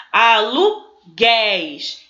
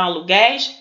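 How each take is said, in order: First: "Aluguéis" drawn out very slowly, syllable by syllable, "gué" open and stressed; "Aluguéis" stretched out with every syllable clear and the open "éis" held; spelled-out dictation. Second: Said in the usual way. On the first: Shown as a demonstration. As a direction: read "Aluguéis" slowly and carefully, like dictating a word to a class. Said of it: "Então, aluguéis leva acento".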